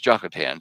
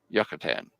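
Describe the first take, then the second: First: The name begins with a J sound. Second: The name begins with a Y sound. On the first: "in English, you see it's Jokatan" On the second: "when you pronounce it in Hebrew, it's Yucatan"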